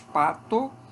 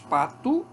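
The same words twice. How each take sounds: First: The final vowel is pronounced as 'o'. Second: The final vowel is pronounced as 'u'. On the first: "o O ou U pode ocorrer" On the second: "o O ou U pode ocorrer"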